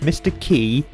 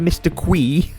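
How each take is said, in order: First: The name sounds like the word key. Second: The name starts with a kw sound, kwee. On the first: "pronounced Mister Key" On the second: "but never Mister Quee"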